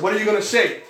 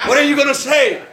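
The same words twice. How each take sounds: First: Said in the usual way. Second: Higher and louder, laughing as he asks; laughing plea. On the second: Retold or imitated. To his uncle, pleading again with laughter. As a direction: beg through laughter.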